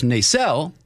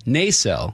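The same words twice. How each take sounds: First: Nacelle with the second syllable stressed; the old guide's Nacelle, weight on its end. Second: Nacelle with the first syllable stressed; residents' Nacelle, weight on the opening syllable. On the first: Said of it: "the old guide says". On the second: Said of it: "what the current residents of Nacelle". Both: Shown as a demonstration.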